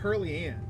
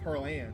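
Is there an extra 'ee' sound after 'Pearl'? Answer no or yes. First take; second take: yes; no. First: An extra 'ee' sound follows 'Pearl'. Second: 'Pearl' runs straight into 'Ann'. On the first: The name sounds more southern. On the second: The name sounds less southern.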